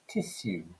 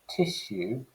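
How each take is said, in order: First: It is said in an old-fashioned posh way. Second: It is said in a modern everyday way.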